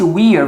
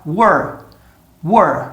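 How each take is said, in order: First: "we're" said like "wee-er"; "we're" with a clear "wee" before the r; full contraction. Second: "were" squeezed to one short syllable; "were" with the ee gone, like "wur"; sped-up contraction. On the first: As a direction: keep the long ee in "we're". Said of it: "vai virar". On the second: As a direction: reduce "we're" to a quick "were". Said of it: "Tô falando bem rápido agora". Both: Shown as a demonstration.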